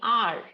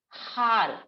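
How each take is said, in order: First: The word starts with a vowel sound. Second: The word starts with an h sound. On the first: The speaker calls it right. "We pronounce it as R" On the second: The speaker calls it wrong. "We don't say har. That's wrong"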